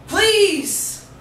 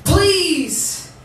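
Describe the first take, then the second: No difference in how they are said.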